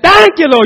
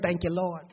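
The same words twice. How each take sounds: First: It is shouted loudly and drawn out. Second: It is said flatly and briefly.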